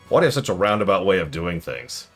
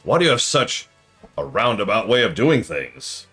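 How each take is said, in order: First: The phrase is read plainly, without marking. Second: The phrase is set off as if in quotes.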